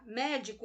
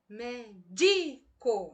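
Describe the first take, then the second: First: The stress is on the last syllable. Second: The stress is on the second syllable. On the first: "Veja que eu estou intensificando a sílaba co" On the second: "Se eu colocar a tonicidade na palavra, na sílaba di"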